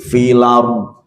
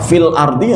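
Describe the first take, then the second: First: The glottal stop is dropped and the words merge. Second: The glottal stop before 'ardi' is pronounced. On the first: It follows a variant reading tradition. "tapi filar" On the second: It follows the usual standard reading. "Kayak fil ardi yang nggak mau"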